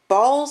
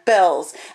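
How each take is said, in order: First: The name is said with the vowel of 'ball'. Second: The name is said with the vowel of 'bell'. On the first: The speaker calls it wrong. "I've been pronouncing that incorrectly the whole time" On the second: The speaker calls it right. "or Bells. I'm sorry, not Balls"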